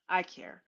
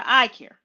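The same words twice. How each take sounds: First: Softer, tender echo; soft repeat. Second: Louder, firm insistence; I care, declared loud and firm; emphatic. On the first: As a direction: say it again, almost to yourself. Repeats it softly to viewers. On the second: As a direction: say it like you mean it to everyone. Insisting she cares for viewers. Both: Real, not acted.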